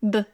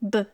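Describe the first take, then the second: No difference in how they are said.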